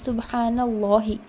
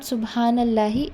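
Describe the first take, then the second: First: The L in Allah is heavy and thick. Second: The L in Allah is light and thin. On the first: The speaker calls it right. "it is" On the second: The speaker calls it wrong. "It is not"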